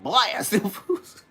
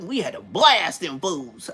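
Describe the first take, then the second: First: Higher, slow questioning echo, breaking into laughter; incredulous echo. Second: Slow OG telling, BLAST stretched out; OG emphasis. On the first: Young homie echoing the OG's words, amused disbelief. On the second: Big homie telling war stories, old-school emphasis on "blast". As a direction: lean long and hard on "blast". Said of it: "the way they put the emphasis on the word". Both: Retold or imitated.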